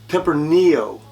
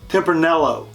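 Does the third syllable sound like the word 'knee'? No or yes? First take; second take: Yes; No. First: The third syllable sounds like the word knee. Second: The third syllable does not sound like knee. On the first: The speaker calls it right. "like a knee on, the, on your leg" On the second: The speaker calls it wrong. "This is not pronounced Tempranillo"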